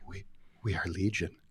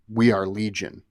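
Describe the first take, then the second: First: It is said in a soothing Charlotte's Web voice. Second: It is said in his plain narrating voice.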